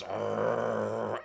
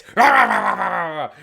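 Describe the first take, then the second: First: Imitated warning growl, held steady; restrained, drawn-out dog growl; dog's growl. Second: Loud, high imitated snarl, falling; sudden loud burst of mock dog growling; exploding dog snarl. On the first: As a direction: growl like a dog being lowered. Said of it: "as you put him down, he goes". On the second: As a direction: erupt like a small dog going off. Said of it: "when you're about to put him down, it's".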